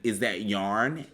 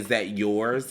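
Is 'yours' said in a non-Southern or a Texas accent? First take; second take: Texas; non-Southern. First: The word 'yours' sounds like 'yarn', Texas style. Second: The word 'yours' has a non-Southern pronunciation. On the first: "That's Texas" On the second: "I say is that yours"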